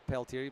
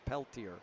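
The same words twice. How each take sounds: First: The name is pronounced in a French way. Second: The name is pronounced in an English way. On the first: This is how the speaker would say it. "I would say Peltier" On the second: This is how the name's owner wrote it down. "not the proper French pronunciation"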